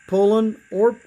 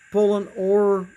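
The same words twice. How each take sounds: The two takes are said the same way.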